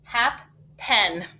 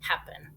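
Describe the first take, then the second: First: The second syllable has a full E vowel. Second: The second syllable has a reduced schwa vowel. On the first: "So I divide it" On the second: "That E got schwabbed"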